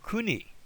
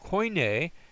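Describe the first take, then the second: First: The word ends with an 'ee' sound. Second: The word ends with an 'ay' sound. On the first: "if you go to Greece, you'll hear this pronounced as a uh, e" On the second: "that a sound"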